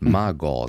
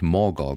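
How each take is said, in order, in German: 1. Die erste Silbe klingt wie 'ma'. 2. Die erste Silbe klingt wie 'mor'. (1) "Magor sagt man" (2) "Jetzt habe ich Morgor gesagt"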